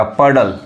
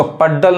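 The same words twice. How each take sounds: First: पडल with only one d sounded; पडल without doubling the d; single-d pronunciation. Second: पड्डल with both d's sounded; पड्डल wrongly split on a doubled d; wrong double-d pronunciation. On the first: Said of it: "अब इसको पड्डल नहीं कहेंगे". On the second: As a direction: say पड्डल as pad-dal, doubling the d. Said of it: "गलत हो जाएगा". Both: Shown as a demonstration.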